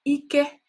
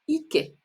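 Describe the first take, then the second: First: It has the tone pattern meaning strength. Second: It has the tone pattern meaning buttocks. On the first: It means strength. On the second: It means buttocks. "part of the body, buttocks"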